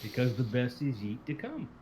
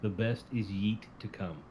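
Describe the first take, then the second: First: Slow, rising finish on "yeet to come"; yeet pun again. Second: Slow, leaning on yeet in "The best is yeet to come"; pun on yeet. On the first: Co-host repeating his title pun, drawn out. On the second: Co-host pitching an episode title pun, slow and proud. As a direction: savour the word yeet like a punchline. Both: Shown as a demonstration. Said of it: "submission for the podcast episode title".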